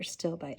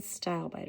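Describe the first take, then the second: First: Stilbite said as STILL-bite; short i at the start of stilbite; alternative pronunciation. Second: Stilbite said as STYLE-bite; long i at the start of stilbite; first pronunciation variant. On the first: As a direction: open stilbite with the sound of "still". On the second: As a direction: open stilbite with the sound of "style". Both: Shown as a demonstration. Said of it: "however you wanna pronounce that".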